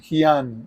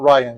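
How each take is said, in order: First: The name begins with an H sound. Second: The name begins with an R sound. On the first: This is how the name is said in Brazil. "Here I am Hian" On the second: This is how the name is said at home. "I'm not Ryan"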